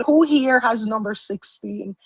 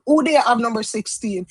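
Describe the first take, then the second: First: Said in the usual way. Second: The line said in Jamaican patois; asking the viewers casually in Jamaican patois. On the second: Shown as a demonstration. Asking viewers who picked sixteen, in Jamaican patois. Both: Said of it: "I just said".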